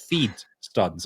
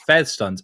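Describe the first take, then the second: First: The first vowel is a long ee sound. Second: The first vowel is a short e sound. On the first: The speaker calls it right. "It's not fed. It's feed stuns" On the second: The speaker calls it wrong. "it's fed stuns"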